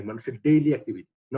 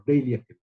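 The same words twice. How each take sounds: First: Said in the usual way. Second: daily punched, said firmly against yearly and monthly; stress on daily. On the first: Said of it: "খেয়াল করো, daily activity". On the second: Shown as a demonstration. Lecturer stressing daily to students, not yearly, firm emphasis. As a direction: lean hard on daily to set it apart. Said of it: "খেয়াল করো".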